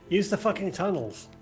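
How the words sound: The stress falls on the word fucking. The speaker calls it wrong.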